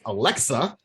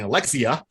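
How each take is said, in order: First: The name has two syllables, ending in -xa. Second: The name has three syllables, ending in -xia. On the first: The speaker calls it right. "It's Alexa" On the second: The speaker calls it wrong. "I was mispronouncing this thing. I was saying Alexia"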